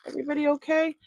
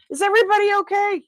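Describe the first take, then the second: First: High, light check-in question; high-voiced mock concern; playful concern. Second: Loud, very high, rushed question; hammed-up loud, squeaky concern; mock alarm. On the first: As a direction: ask it pitched up, at an easy volume. Checking on dropped items. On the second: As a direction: call it out fast in high-pitched mock panic. Repeats check on dropped items, escalating.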